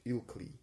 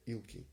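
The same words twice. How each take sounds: First: Ilkley said with both l sounds, "Ilk-lee"; corrected Ilkley. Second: Ilkley said as "Ilki", the second l dropped; misread Ilkley. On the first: Correcting the town name for listeners, clearly. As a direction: fix the word as Ilkley, clear and final. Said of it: "uh, Ilkley". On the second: Reading the town name to listeners, a slurred misreading. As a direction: slip into "Ilki" without the l. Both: Real, not acted.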